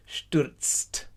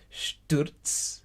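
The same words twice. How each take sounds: First: "Stürzt" with a crisp t after the ts; added final T. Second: "Stürz" ending in ts, no final t. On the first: Teacher builds the tricky word in steps, "Stürzt" with final t added. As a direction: finish "Stürzt" on t-s-t. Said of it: "put a T at the end of it". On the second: Teacher builds the tricky word in steps, "Stürz" ending on ts. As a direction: finish "Stürz" on a clean ts. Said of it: "Just say Stürz with a T S at the end". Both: Shown as a demonstration.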